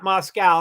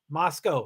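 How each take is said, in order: First: The last syllable does not sound like 'coe'. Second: The last syllable sounds like 'coe'. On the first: The speaker calls it wrong. "not Moscow, not like Russia" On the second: The speaker calls it right. "C O E"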